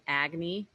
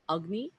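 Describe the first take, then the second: First: The first vowel is a long open 'ah'. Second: The first vowel is a short 'uh'. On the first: The speaker calls it wrong. "rather than agni" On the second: The speaker calls it right. "the short a, so it's pronounced like a uh uh sound"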